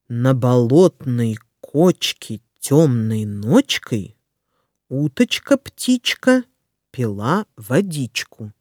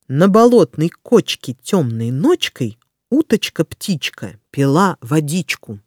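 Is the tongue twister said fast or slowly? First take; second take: slowly; fast. First: It is said slowly and carefully. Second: It is said quickly. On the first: "Сначала я прочитаю скороговорку медленно" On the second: "А затем я проговорю скороговорку быстро"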